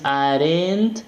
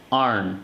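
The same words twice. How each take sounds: First: "aren't" as two syllables "ah-RENT", rising; wrong pronunciation. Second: "aren't" as one syllable "arn", falling; correct pronunciation. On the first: Teacher showing what not to say, two-syllable "aren't". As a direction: sound the E and T, pitched higher. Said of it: "Entonces no dices". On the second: Teacher giving the right model, reduced "aren't". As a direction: silent E and T, low drawn N. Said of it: "Entonces dices". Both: Shown as a demonstration.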